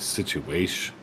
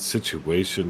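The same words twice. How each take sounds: First: The word is clipped short, missing its ending. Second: The word is said with all its syllables. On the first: "they shorten everything" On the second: "instead of saying situation"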